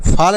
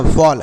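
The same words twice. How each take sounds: First: फॉल misread with an open "aa", as "faal"; wrong vowel demo. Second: फॉल with a rounded "aw"; correct vowel demo. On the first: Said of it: "फॉल नहीं पढ़ना". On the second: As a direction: say फॉल like English "fall". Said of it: "ऐसे पढ़ना है". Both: Shown as a demonstration.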